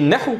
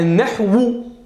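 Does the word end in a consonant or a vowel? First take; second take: consonant; vowel. First: The word ends without a final vowel. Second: The word ends with a final u vowel. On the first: This is the form used when stopping. "Quand je dis nahu comme ça" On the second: This is the full form with its grammatical ending. "normalement, c'est un nahwu"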